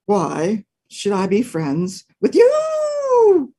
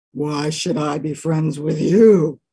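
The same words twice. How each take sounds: First: Slow, drawn-out wolf voice; a grudging wolf, slowly; slow suspicious wolf; gruff wolf. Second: Lower, slow bear voice; a grudging bear, slowly; slow suspicious bear; gruff bear. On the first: Wolf answers dog. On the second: Bear answers dog. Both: Acted.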